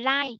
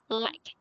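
First: The final k sound is dropped. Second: The final k sound is clearly released. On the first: The speaker calls it wrong. "Thay vì việc nói like" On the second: The speaker calls it right. "thì mình nói like"

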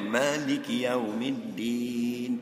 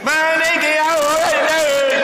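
First: It is recited at a moderate volume. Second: It is recited very loudly.

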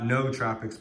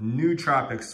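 First: The first syllable has a vowel other than ooh. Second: The first syllable has an ooh vowel. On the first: The speaker calls it wrong. "So not nootropics" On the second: The speaker calls it right. "N-O-O, like ooh, with the two O's being ooh"

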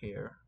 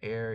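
First: The word begins with a clear h sound. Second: The word begins with a vowel, no h sound. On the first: "I will just pronounce it as all hair" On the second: "an heir is what, like, most people will pronounce it as"

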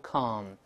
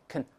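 First: The vowel is full and clear. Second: The vowel is weak and reduced. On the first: The speaker calls it wrong. "不要读con" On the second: The speaker calls it right. "在轻读时发kn kn kn"

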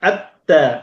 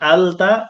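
First: The l merges into a doubled t sound. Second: The l is sounded clearly before the t. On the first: The speaker calls it right. "লামটা স্পষ্ট উচ্চারিত হয় না, বরং মিলে যায়" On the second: The speaker calls it wrong. "আলতা কখনোই হবে না"

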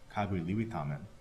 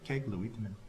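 First: It is said in the speaker's Abenaki accent. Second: It is said in a contracted Maliseet accent.

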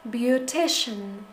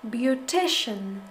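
No difference in how they are said.

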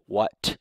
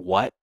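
First: The final t is released with a puff of air. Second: The final t is released without a puff of air. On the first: "whether I use the aspirated T" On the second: "or the unaspirated T"

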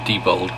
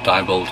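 First: The first syllable sounds like 'dee'. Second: The first syllable sounds like 'die'. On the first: This is a possible pronunciation of the name. "it might be debold" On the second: This is how the speaker always says the name. "but I always pronounce it diebold"

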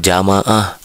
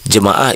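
First: The first vowel is an a sound. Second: The first vowel is an e sound. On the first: The speaker calls it wrong. "bukan jamaah" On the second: The speaker calls it right. "jemaah itu"

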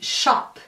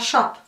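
First: The final p is exaggerated and clearly released. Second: The final p is soft and barely heard. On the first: "eu estou exagerando" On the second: "Você quase nem está ouvindo"

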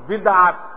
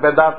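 First: It starts with 'bid' and breaks before 'at'. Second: It starts with 'be' and has no break. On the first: The speaker calls it right. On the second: The speaker calls it wrong.

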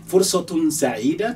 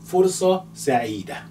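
First: The first word keeps its full ending. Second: The first word's ending is dropped.

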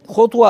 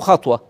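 First: The first syllable has a 'u' vowel. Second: The first syllable has an 'a' vowel. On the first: "بضم الخاء" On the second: "وفتحها"

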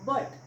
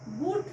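First: The vowel sounds like 'uh'. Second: The vowel sounds like 'oo'. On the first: The speaker calls it right. "It's बट, कारण यूचा उच्चार अ करायचा आहे" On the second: The speaker calls it wrong. "बूट नाही"

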